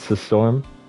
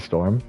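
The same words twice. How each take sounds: First: The name is said in an altered, unusual voice. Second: The name is said in a normal voice. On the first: It refers to the eldritch deity. "that means you're talking about the Eldritch deity" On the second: It refers to the ordinary person. "when you pronounce Storm's name normally like this"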